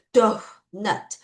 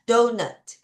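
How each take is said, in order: First: Dough, nut as two separate beats; careful teaching demo of dough, nut; syllable-by-syllable donut. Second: Said in the usual way. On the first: Shown as a demonstration. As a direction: split donut into dough, then nut, with silent GH. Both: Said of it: "이런 발음이에요".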